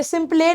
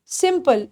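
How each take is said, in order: First: "सिंपले" with the final e sounded, sim-play; wrong pronunciation. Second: "सिंपल" ending in a soft -pul; correct pronunciation. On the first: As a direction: read the spelling literally, "सिंपले" ending in -lay. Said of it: "नहीं बोलना". ("सिंपले" ग़लत, आख़िर में ए बोलकर) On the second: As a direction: say "सिंपल" softly, no e at the end. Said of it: "ये सिंपले नहीं बोलना". ("सिंपल" सही, आख़िर में सिर्फ़ ल) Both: Shown as a demonstration.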